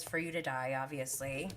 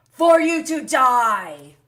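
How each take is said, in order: First: Said in the usual way. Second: Loud, slow, delighted repeat of the quote; gleeful exclamation. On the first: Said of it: "She says". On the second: Real, not acted. Vlogger relishing [name]'s comeback, with loud glee. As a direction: savour the line with shocked glee.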